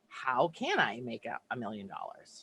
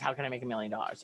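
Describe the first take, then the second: First: It sounds excited, full of possibility. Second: It sounds needy, coming from lack.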